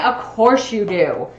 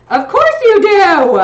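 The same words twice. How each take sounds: First: Said in the usual way. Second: High, loud, slow teasing voice; playful mock voice. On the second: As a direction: tease it in a put-on voice.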